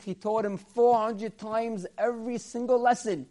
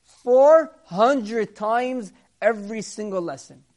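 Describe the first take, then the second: First: Said in the usual way. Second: "four hundred times every single lesson" slow, louder, each word weighted; stress on four hundred. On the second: Shown as a demonstration. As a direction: hammer "four hundred" home slowly. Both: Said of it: "Imagine this".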